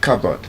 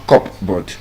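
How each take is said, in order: First: The p sound is silent. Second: The p sound is pronounced. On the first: The speaker calls it right. "The P uh, sound is also silent in cupboard" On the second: The speaker calls it wrong. "It's not cupboard"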